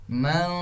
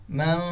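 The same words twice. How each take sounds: The two takes are said the same way.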